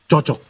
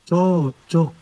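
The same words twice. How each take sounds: First: It is said in a plain, approving tone. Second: It is said in a mocking, ironic tone. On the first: Things fit together well. "Pas itu, serasi itu, klop itu, mantap itu" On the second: Two bad people deserve each other. "Tapi kalau saya bilang begini"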